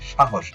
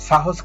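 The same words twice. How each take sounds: First: The hissing consonants are said as sh. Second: The hissing consonants are said as s. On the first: The speaker calls it right. "দন্তস্ব কখন তালব্য হবে, যখন সাহসের মতো উচ্চারণ হবে" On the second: The speaker calls it wrong. "সাহস কিন্তু নয়"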